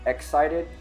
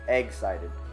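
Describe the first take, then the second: First: The first syllable begins with a plain 'eck' sound. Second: The first syllable sounds like the word 'egg'. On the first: "what is the correct way to say it? ... That sounds wrong" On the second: "I say like egg instead of"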